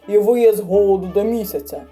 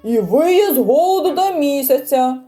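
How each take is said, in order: First: The line is said at normal loudness. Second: The line is said noticeably louder.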